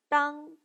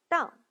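First: The pitch stays high and level. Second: The pitch falls sharply from high.

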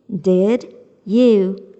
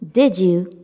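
First: The two words are said separately. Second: The two words run together as one.

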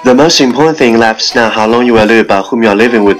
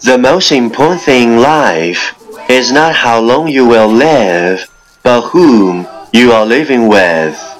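First: It is read very fast in one breath. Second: It is read at a normal, steady pace.

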